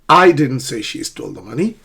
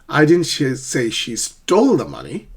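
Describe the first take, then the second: First: The stress falls on the word I. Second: The stress falls on the word stole.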